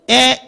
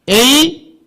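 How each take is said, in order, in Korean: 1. 'a' 모음은 짧은 소리로 발음해요. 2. 'a' 모음은 긴 소리로 발음해요. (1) "짧을 때는" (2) "길게 읽기는"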